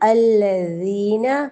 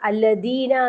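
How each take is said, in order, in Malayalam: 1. ഈ വാക്ക് ശ്രദ്ധയോടെ വ്യക്തമായി ഉച്ചരിക്കുന്നു, നാവ് പല്ലുകൾക്കിടയിൽ. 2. ഈ വാക്ക് വേഗത്തിൽ തിടുക്കത്തിൽ പറഞ്ഞു തീർക്കുന്നു. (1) "നാവിന്റെ തുമ്പ് ... പുറത്തേക്ക് കാണിച്ചിട്ട് വേണം ദാ ഉച്ചരിക്കാൻ" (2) "എന്ന് വേഗം ഓതിപ്പോവും. അങ്ങനെ പാടില്ല"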